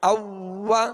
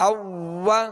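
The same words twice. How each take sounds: The two takes are said the same way.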